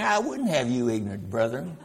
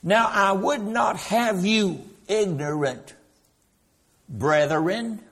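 First: There is no pause before 'brethren'. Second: There is a pause before 'brethren'.

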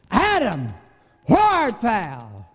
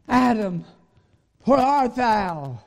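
First: The voice sounds angry and harsh. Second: The voice sounds sad and full of sorrow. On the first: God is furious with the man. "read it as if God said it in anger" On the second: God grieves over the man. "with pathos and sorrow in his voice"

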